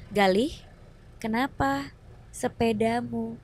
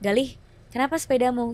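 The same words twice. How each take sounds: First: It is spoken slowly, word by word. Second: It is spoken at a quick, normal pace. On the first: This imitates how people talked in the eighties. "pas latihan itu yang kayak, ... dilambat-lambatin gitu ngomong" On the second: This is everyday modern speech. "Kalau normal"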